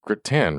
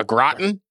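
First: Gratin said "gruh-TAN", stress on the end; usual pronunciation. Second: Gratin as questioning "GROT-n", stress up front; alternative pronunciation. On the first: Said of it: "How do you pronounce gratin?". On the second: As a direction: try gratin as "GRAH-tn", second vowel swallowed, rising. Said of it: "What am I supposed to say?". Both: Shown as a demonstration.

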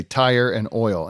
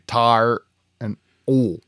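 First: "tire" with a full two-part vowel, "oil" as two syllables, slowly; "tire and oil" said the northern way, two syllable "oil", drawn out. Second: "tar" with a flat single vowel for tire, "oil" squeezed to one syllable, slowly; southern tar and oil. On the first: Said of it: "we're north and Mason-Dixon line". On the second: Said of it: "if they're south, they'd say". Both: Retold or imitated.

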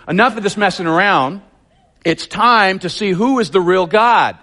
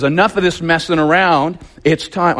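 First: Higher, bolder prophet challenge; J P version. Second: Said in the usual way. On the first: Shown as a demonstration. Preacher voicing Elijah confronting the king, higher and bold. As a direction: throw down the gauntlet to the king. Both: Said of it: "I'm giving you the J P version here".

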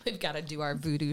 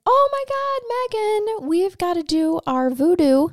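First: Low, soft echo of the opener; subdued repeat. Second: High, eager call to co-host; excited call. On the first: Retold or imitated. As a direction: say it quietly, dropped in pitch. Repeats the opening line, subdued. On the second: Real, not acted. Excited opening cry to co-host.

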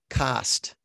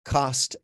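First: "cast" for cost, open ah vowel; Midwestern-style open vowel in "cast". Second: "cost" with a rounded aw vowel. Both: Shown as a demonstration. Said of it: "I kept saying cost as cast".

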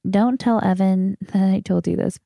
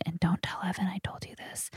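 First: Said in the usual way. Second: Hushed, secretive aside; whispering. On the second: Real, not acted. Confiding a secret about Evan to listeners, whispering. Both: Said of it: "I love how I'm whispering right now".

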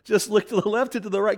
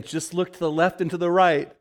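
First: Same line again, pitched clearly higher; inner voice repeated higher. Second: Lightly voiced inner voice, a touch higher; quoted inner voice. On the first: Retold or imitated. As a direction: let the voice insist, climbing up. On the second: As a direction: echo the voice she hears in her head. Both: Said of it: "The voice keeps saying".

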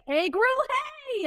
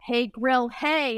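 First: High, rising playful echo; mock sing-out catchphrase; imitating his excited reply. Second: Slightly raised, playful hey-grill-hey; lightly acted catchphrase greeting; retold greeting. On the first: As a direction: echo it back higher, stretching the last hey. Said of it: "he was like". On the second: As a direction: try the phrase out playfully. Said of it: "I was like".

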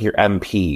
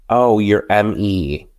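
First: "M P" said as the letters em, pee; "M P" spelled out em then pee, as the version actually meant; intended letters. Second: "M E" said slowly as the letters em, ee; "M E" spelled out slowly, em then ee, as the misspoken version; misheard letters. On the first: Shown as a demonstration. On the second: Retold or imitated. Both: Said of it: "it's just like your M P".

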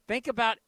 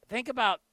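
Both takes have the same delivery.

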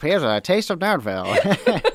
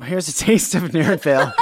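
First: Barker shout with a rising tune; loud carnival barker. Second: Laughing barker call; loud carnival barker. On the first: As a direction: hawk it to a passing crowd. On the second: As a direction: sell it like a fairground barker. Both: Pretend. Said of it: "Step right up".

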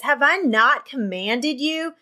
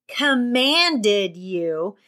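First: Said in the usual way. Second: COMMANDED stretched out very slowly; emphatic repeat. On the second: A narrator's reading. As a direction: draw out "Commanded" slowly to drive it home. Repeats it after "Did you hear me.

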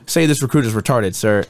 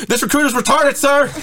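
First: Said in the usual way. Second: High-pitched screamed recruit response; mock recruit scream. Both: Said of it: "And then I screamed".

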